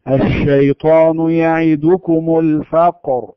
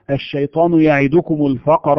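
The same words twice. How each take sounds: First: الشيطان with a full sh spreading through the mouth, recited slowly; spread sh recitation. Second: الشيطان said with a short sh that does not spread; clipped sh, no spread. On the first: Teacher reciting the correct spreading sh. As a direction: let the sh of الشيطان fill the mouth, slow. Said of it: "يمشي ويجري في الفم وينتشر". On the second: Teacher showing the wrong, unspread sh. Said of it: "ليس هذا تفشيا". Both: Shown as a demonstration.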